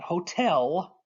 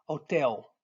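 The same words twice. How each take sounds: First: "hotel" with a sounded H and full final L; English pronunciation. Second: "hotel" with silent H and swallowed L; Portuguese pronunciation. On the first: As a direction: draw out "hotel" the American way, L pronounced. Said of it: "not hotel". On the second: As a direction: say "hotel" ending in eh-oo, falling. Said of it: "Kinda swallow that L". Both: Shown as a demonstration.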